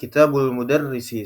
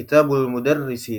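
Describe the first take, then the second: First: The two words run together as kitabul. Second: The same.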